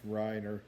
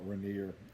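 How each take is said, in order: First: The name is said like 'Reiner'. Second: The name is said like 'Rainier'. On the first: The speaker calls it right. "but it's Reiner" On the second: The speaker calls it wrong. "I always want to call it Rainier"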